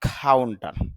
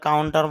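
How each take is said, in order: First: The first k sound has a puff of air. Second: The first k sound has no puff of air. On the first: This is how it is said in English. "ইংলিশে যখন আমরা উচ্চারণটা করব তখন উচ্চারণটা হবে কাউন্টার" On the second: This is how it is said in Bengali. "বাংলাতে কাউন্টার বলে"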